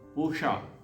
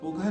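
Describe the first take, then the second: First: The middle consonant is an sh sound. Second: The middle consonant is a kh sound. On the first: The speaker calls it right. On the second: The speaker calls it wrong. "पूखा अब पूखा नहीं है"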